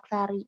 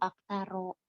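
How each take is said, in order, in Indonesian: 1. Kata itu berakhir dengan vokal i. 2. Kata itu berakhir dengan vokal a. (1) "dibaca kasroh" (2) "jernya itu dengan fathah"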